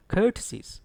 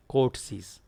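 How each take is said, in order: First: Courtesies starting "kur", short central vowel; careful courtesies with stressed KUR, no OR sound; correct pronunciation. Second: Courtesies with a full "court" vowel, core-t-sees; students' mispronunciation. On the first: Shown as a demonstration. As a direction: say courtesies as kur-tuh-seez, stress first. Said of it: "Actually, it is". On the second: Retold or imitated. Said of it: "Certain students pronounce it as".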